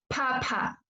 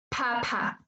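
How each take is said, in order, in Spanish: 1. La p se libera con una fuerte bocanada de aire. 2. La p se libera con una fuerte bocanada de aire.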